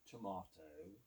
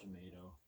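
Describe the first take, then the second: First: It is said with a British accent. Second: It is said with an American accent.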